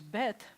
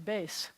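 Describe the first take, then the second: First: The name ends with a t sound. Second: The name ends with an s sound. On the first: "the name of this letter is bet" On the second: "but they would say base"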